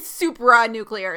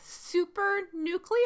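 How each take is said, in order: First: The first part sounds like 'supra'. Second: The first part sounds like 'super'. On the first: The speaker calls it right. "It's actually supra nuclear" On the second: The speaker calls it wrong. "when I heard that, I was like, super nuclear?"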